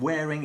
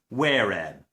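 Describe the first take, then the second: First: The word ends with a full -ing sound. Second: The word ends with a short -in sound. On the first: "the ing sound in the gerund in English" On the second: "becomes in in Bristolian"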